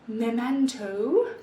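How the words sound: It is said with a British accent. "No, that's British"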